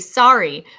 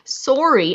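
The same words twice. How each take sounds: First: The first vowel sounds like 'ah', American style. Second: The first vowel sounds like 'oh', Canadian style. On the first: The speaker calls it wrong. "Americans make it sound like it's S A R R Y and say sorry" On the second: The speaker calls it right. "it's S O R R Y, so it should be sorry"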